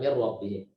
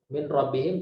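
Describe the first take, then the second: First: The n merges into the r without nasal hold. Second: The n is pronounced separately before the r.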